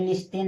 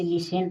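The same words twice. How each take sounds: First: "लिस्टेन" with an audible t; T sounded. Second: "लिसेन" with s and no t; silent-t reading of "लिसेन". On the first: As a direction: say "लिस्टेन" with the st cluster. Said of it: "लेकिन लिस्टेन नहीं". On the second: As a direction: say "लिसेन", s straight into -en. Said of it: "इसे लिसेन पढ़ा जाता है". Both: Shown as a demonstration.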